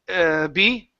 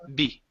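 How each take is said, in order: First: A hesitant 'uh' comes before the word. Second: The word is said cleanly with no filler. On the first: The speaker calls it wrong. "You don't want to say" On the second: The speaker calls it right. "just B"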